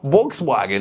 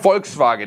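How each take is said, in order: First: It is said with an American pronunciation. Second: It is said with a German pronunciation. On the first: The speaker calls it wrong. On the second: The speaker calls it right.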